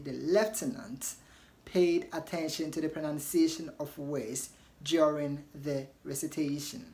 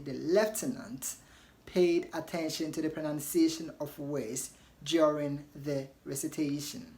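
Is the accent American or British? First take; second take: British; British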